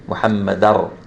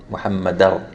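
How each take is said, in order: First: The n merges into a stressed following r. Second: The n merges into a stressed following r.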